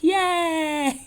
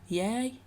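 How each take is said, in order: First: It is said with lively enthusiasm. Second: It is said flatly, without much energy.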